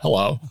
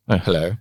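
First: It is said in an American-sounding accent. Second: It is said in a posh British-sounding accent. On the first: "An American version" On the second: "a bit of a reputation for being quite"

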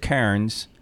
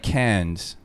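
First: It is said in the speaker's own home accent. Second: It is said imitating an Australian accent. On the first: This is how the speaker's own group says it. "we would pronounce it Cairns" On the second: This is how locals in Australia say it. "The Australians kind of pronounce it like Cairns"

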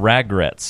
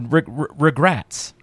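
First: The first syllable is said with an 'a' vowel, 'rag'. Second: The first syllable is said with a plain 'ree' vowel. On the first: The speaker calls it wrong. "Or ragrets, or however you want to pronounce it" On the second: The speaker calls it right. "We'll go with the more proper term"

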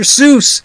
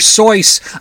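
First: The name rhymes with loose. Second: The name does not rhyme with loose. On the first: The speaker calls it right. "It's Dr. Seuss on the loose" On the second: The speaker calls it wrong. "was not Dr. Seuss on the loose"

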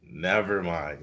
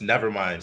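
First: The phrase is drawn out slowly and gently. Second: The phrase is said quickly and plainly. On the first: The speaker calls it right. "like it really drag it out" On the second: The speaker calls it wrong. "Not just never mind"

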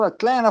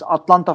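First: It is said with an American English accent. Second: It is said with a plain Turkish accent.

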